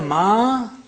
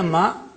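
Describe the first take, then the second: First: The vowel after m is long. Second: The vowel after m is short. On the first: "mim plus alif" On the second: "mim fatha"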